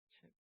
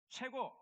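First: It is said weakly, without any energy. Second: It is said with strong, lively energy. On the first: The speaker calls it wrong. "너무 막 성의 없이 하는 것도 있어요" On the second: The speaker calls it right. "좀 힘차게 해야 되지 않겠어요?"

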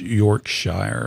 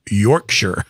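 First: It is said the American way, ending like 'shire'. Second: It is said the British way, ending like 'sher'. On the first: This is how it is said locally in Atlanta. The speaker calls it wrong. "like we say here in Atlanta, Georgia" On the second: This is how the correction said it should be. The speaker calls it right. "no, it's Yorkshire"

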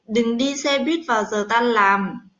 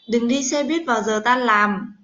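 No difference in how they are said.

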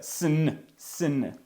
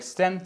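First: The ending has no t and no vowel. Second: The ending has a t and a full vowel. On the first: The speaker calls it right. "це сн" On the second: The speaker calls it wrong. "Вона не вимовляється як стен"

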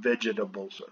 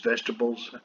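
First: The word is said fully, as it is spelled. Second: The word is said shorter than its spelling. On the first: The speaker calls it wrong. "not vegetables" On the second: The speaker calls it right. "we pronounce this as vegetables"

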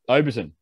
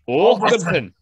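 First: It is said in a plain, non-Scottish accent. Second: It is said in a Scottish accent. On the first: The speaker calls it wrong. "No, that's not right" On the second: The speaker calls it right. "It's more of a Scottish"

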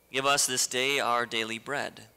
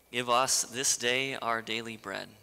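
No difference in how they are said.

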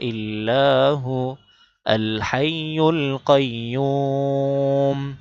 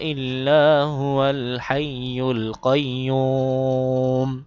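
First: There is a stop after hu. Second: Hu is joined straight into al. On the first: "যদি মিলায় না পড়েন তাহলে হু বলে থামবেন" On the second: "ওয়াও এই লামকে ধরবে যদি আপনি মিলায়ে পড়েন"

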